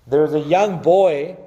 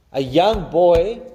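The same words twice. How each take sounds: First: Said in the usual way. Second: Put-on drawn-out a young boy with boy rising; slow a young boy, rising boy; slow emphatic repeat. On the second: Shown as a demonstration. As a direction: stretch out a young boy, lift boy.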